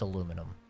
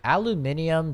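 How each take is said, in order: First: The word is said with four syllables. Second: The word is said with five syllables. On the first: The speaker calls it right. "It's aluminum" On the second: The speaker calls it wrong. "that doesn't even make sense"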